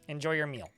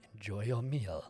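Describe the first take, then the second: First: It is said in the speaker's natural voice. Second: It is said in a put-on character voice.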